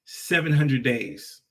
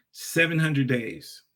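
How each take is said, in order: Both takes have the same delivery.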